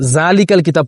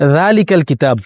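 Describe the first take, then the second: First: The first word begins with a 'z' sound. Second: The first word begins with a 'dh' sound. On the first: The speaker calls it wrong. "অনেকে জালিকাল কিতাব পড়ে ফেলে" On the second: The speaker calls it right. "যেমন যালিকাল কিতাব"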